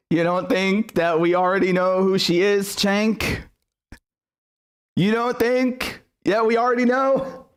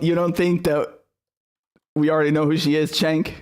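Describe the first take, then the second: First: Mocking incredulity. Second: Said in the usual way. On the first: Real, not acted. Streamer taunting Cenk over his post, high mocking incredulity. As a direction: question climbing higher and higher, drawn out at the end.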